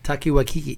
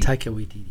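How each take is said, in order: First: The surname is said with k sounds. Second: The surname is said with t sounds. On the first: The speaker calls it wrong. "let me say his name right" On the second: The speaker calls it right. "That's right"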